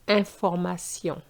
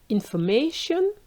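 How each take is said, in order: First: It is pronounced the French way. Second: It is pronounced the English way. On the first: "versus information" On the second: "information in English"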